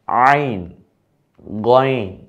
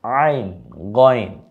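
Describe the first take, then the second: First: আইন and গইন said loud and clear; model pronunciation. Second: আইন and গইন said again, loud and clear; repeat after me. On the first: (স্পষ্ট উচ্চারণে আইন, গইন) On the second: (অনুকরণের জন্য আইন, গইন) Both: Shown as a demonstration. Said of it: "আমার মতো বলুন".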